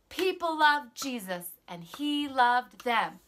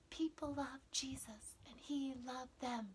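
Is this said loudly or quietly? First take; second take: loudly; quietly. First: The words are said at full volume. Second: The words are said at low volume. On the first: "say with me" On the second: "say it in your quiet voice"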